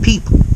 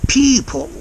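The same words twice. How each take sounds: First: The final L and vowel are short and plain. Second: The final L and vowel are stretched out. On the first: "People is what I would say" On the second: "he's extending this L, and also the E sound in people"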